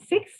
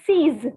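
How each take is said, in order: First: The word ends with a ks sound. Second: The word ends with a plain s sound. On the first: The speaker calls it wrong. "the pronunciation is not six" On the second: The speaker calls it right. "but the pronunciation is seize"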